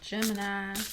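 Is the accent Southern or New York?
Southern. It is said in a Southern US accent.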